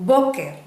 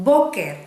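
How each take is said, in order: No difference in how they are said.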